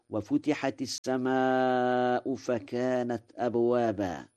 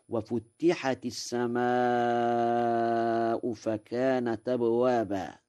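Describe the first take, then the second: First: Said in the usual way. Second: وفتحت with the تاء doubled, futtihat; doubled t in fatta. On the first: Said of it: "قرأ ورش". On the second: Shown as a demonstration. Lecturer demonstrating Warsh's reading of وفتحت with a doubled ت. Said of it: "بتشديد التاء في فتحت".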